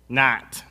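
It is said in a nasal Midwestern accent. "it's not"

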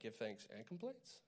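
The voice rises at the end, like a question.

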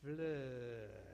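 It is said in a Southern drawl.

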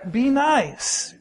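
It is said in a warm, kind tone.

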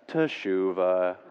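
It is said in a droopy, gloomy way.

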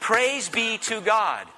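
It is said in an earnest, sincere tone.

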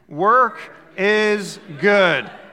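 It is said with strong, forced conviction.

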